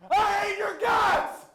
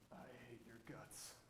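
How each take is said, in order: First: It is said with real anger. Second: It is said in a calm, restrained way.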